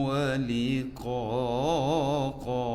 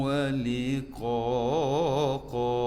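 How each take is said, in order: Both takes have the same delivery.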